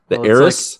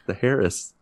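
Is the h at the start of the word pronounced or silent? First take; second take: silent; pronounced. First: The word starts with a vowel, h silent. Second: The word starts with a spoken h sound. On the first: The speaker calls it right. "It's Heiress" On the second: The speaker calls it wrong. "I always want to say Harris"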